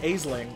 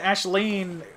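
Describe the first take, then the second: First: The name begins with an 'ace' sound. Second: The name begins with an 'ash' sound. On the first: "it looks like Aisling" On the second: "that's the proper Irish way to say it"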